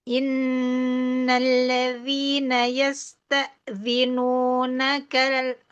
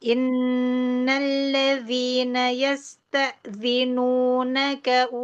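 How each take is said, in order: No difference in how they are said.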